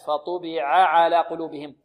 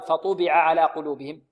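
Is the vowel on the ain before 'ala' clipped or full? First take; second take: full; clipped. First: The vowel of the first ain is given full length. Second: The vowel of the first ain is clipped short. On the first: The speaker calls it right. "لا، فطبع على قلوبهم" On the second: The speaker calls it wrong. "لا يقول الطالب"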